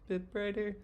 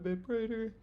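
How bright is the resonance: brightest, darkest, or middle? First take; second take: middle; darkest. First: The resonance is between darkest and brightest. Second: The resonance is the darkest of the three. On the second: "it can get a bit brighter"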